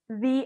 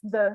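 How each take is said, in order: First: The vowel is long and full, like 'thee'. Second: The vowel is short and reduced, like 'thuh'. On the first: "when there is a vowel" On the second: "Otherwise it's the"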